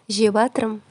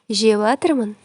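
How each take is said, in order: No difference in how they are said.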